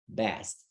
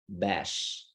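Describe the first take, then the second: First: An s sound comes before the final t. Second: An sh sound comes before the final t. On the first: The speaker calls it right. "it's supposed to be" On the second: The speaker calls it wrong. "your letter S sounds as S H"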